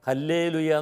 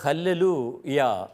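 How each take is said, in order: First: It is said in the everyday Malayalam way. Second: It is said in the original Hebrew way. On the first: The speaker calls it wrong. "നമ്മൾ സാധാരണ ഹല്ലേലൂയ എന്നൊക്കെ പറയാറുണ്ടല്ലോ" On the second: The speaker calls it right. "ഹെബ്രായ ഭാഷയിൽ അത് ഉച്ചരിക്കുന്നത്"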